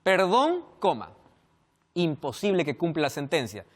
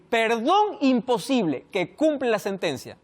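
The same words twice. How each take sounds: First: "Perdón," rising, "coma" dropped low, then "imposible que cumpla la sentencia"; pause after perdón. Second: "Perdón imposible" slow and joined, then "que cumple la sentencia"; pause after imposible. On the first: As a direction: set "Perdón" apart with a rise before "imposible". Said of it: "Primera opción". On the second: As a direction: read "Perdón imposible" slowly as one unit. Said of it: "también podía escribir". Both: Shown as a demonstration.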